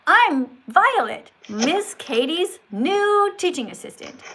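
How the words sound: It is said with enthusiasm and lively inflection.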